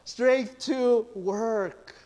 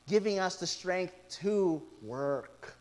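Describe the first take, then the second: First: "Strength to work" drawn out, every word weighted; emphatic preacher stress on "Strength to work"; slow emphatic stress. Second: Said in the usual way. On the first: Real, not acted. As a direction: lean hard on "Strength to work". Repeats phrase for emphasis.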